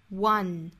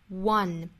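No difference in how they are said.

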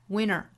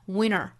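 The two takes are said the same way.

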